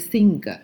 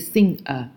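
First: The ng sound is not directly followed by the vowel. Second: The ng sound is directly followed by the vowel. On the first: The speaker calls it wrong. "不是singer" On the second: The speaker calls it right. "是singer"

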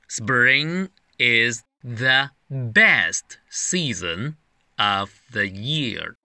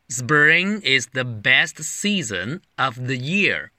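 First: It is read slowly. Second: It is read at normal speed.

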